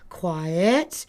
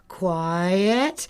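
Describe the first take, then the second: First: It sounds light, uplifting and soft. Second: The same.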